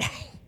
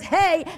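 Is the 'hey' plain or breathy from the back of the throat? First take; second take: breathy; plain. First: It is breathed from the back of the throat. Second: It is said plainly, without throat breath.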